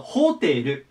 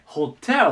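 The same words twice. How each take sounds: First: The accent follows the Japanese katakana pattern. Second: The accent is placed where English puts it. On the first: "日本語だとホテルなんですけど" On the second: "英語はここに来てホテルと言います"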